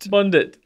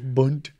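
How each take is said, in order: First: The D is sounded, giving two syllables. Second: The D is silent, giving one syllable. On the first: "I just want to acknowledge him. He's there" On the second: "Even without the D, it's still a fun word"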